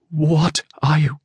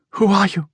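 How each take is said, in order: First: Slow, high, halting question; frightened stammer. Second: High, thin frightened woman's voice; faint, frightened. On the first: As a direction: draw it out high, faltering with fright. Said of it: "the whisper broke into a stammer". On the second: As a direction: ask it high, as if scared of the answer. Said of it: "Her voice was faint and frightened". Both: A narrator's reading.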